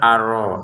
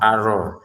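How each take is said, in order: No difference in how they are said.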